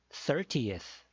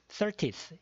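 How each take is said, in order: First: The 'teth' ending is clearly separated off. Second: The 'teth' ending is run together smoothly. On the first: The speaker calls it right. "teth, teth 이렇게 조금 더 끊어주는 것이 좋습니다" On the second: The speaker calls it wrong. "이게 아니라"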